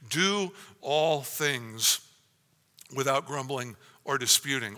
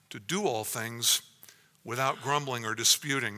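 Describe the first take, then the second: First: Slow, heavy weight on "Do all things"; preacher drives home the command to congregation, slow and stressed. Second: Said in the usual way. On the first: Shown as a demonstration. Drag out "Do all things" word by word. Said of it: "this is comprehensive, utterly comprehensive". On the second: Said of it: "Paul commands them".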